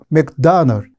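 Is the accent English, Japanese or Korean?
English. It is said with an English accent. The speaker calls it right. "실제로 영어로 하면 ... 맥다널 이런 식으로 말하니까"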